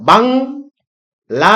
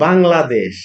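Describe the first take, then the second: First: Bangladesh very slowly, split bang, la, desh; long pauses between the three syllables of Bangladesh. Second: Said in the usual way. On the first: Shown as a demonstration. Teacher breaking a word into syllables, Bangladesh as bang... la... desh. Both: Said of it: "এটার যদি সিলেবলে ভেঙে ফেলতাম".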